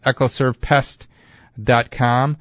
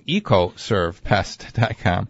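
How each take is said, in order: First: The first part sounds like eck-oh. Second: The first part sounds like ee-coh. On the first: The speaker calls it wrong. "I'm saying it wrong" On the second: The speaker calls it right. "Why am I saying Echo when it's Eco?"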